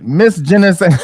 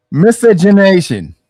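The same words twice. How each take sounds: First: "Miscegenation." garbled into "miss-zhee-nuh-say", the ending swallowed through a laugh; mispronounced. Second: "Miscegenation." spoken slowly and fully as "miss-ih-jeh-NAY-shun"; careful correct pronunciation. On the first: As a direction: stumble on "Miscegenation." and laugh as it falls apart. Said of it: "I can't even pronounce it". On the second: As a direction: lay out "Miscegenation." syllable by syllable, slowly, to finally get it right. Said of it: "I can't even pronounce the fucking word". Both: Real, not acted.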